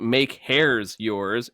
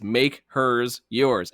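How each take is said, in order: First: The name's vowel sounds like in 'hair'. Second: The name's vowel sounds like in 'her'. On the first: The speaker calls it wrong. "it wasn't make hairs yours" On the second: The speaker calls it right. "it's make hers yours"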